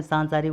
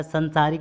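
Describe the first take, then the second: First: सांसारिक opening on long "saan"; long first vowel. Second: संसारिक opening on short "san"; wrong short vowel. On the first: Teacher correcting students, long "saan" in सांसारिक. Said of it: "होता है". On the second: Teacher showing the error, short "san" in संसारिक. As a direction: keep the first vowel of संसारिक brief. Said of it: "में सांसारिक होता है". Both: Shown as a demonstration.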